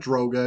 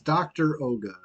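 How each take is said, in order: First: It is one word with an o vowel. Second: It is split into doctor plus Oga. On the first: The speaker calls it wrong. "It's not Droga" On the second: The speaker calls it right. "it's doctor Oga"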